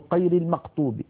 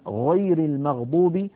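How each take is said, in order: First: The gh sounds are made like a q stop. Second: The gh sounds are smooth throat fricatives. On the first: The speaker calls it wrong. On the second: The speaker calls it right.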